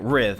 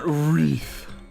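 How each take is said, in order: First: The name is said as 'riv'. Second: The name is said as 'reeth'. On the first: The speaker calls it right. "that's how you say it" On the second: The speaker calls it wrong. "not Wreath"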